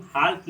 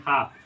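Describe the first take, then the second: First: "हाल्फ", an audible L before the F; wrong pronunciation. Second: "हाफ" without any L; silent L. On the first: Teacher showing students the misreading, हाल्फ with L voiced. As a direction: say हाल्फ with the L sounded. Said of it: "इसको हम हाल्फ नहीं पढ़ेंगे". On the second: Teacher giving students the right reading, हाफ with silent L. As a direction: say हाफ with long aa into F. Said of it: "इसको पढ़ेंगे हाफ". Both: Shown as a demonstration.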